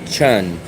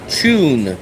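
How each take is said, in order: First: The vowel sounds like the one in under. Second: The vowel sounds like the one in chew. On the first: This is how Americans say it. "we say un, like under" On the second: This is how someone else says it. "Steffi says chew"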